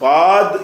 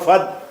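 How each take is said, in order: First: The vowel is said long, drawn out. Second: The vowel is said short. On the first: The speaker calls it wrong. "ஃபாத்ன்னு சொல்லாம" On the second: The speaker calls it right.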